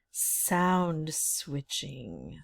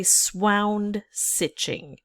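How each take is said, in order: First: Said in the usual way. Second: "swound stitching" with first sounds swapped; spoonerism. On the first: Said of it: "if I were to say swound stitching". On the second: Shown as a demonstration. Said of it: "So a spoonerism is when".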